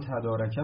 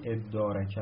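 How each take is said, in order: First: The word starts with a 't' sound. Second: The word starts with 'i' and a doubled 'd'. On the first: "هم تدارکه میتونید تلفظ کنید" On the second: "هم ادارکه میتونید تلفظ کنید"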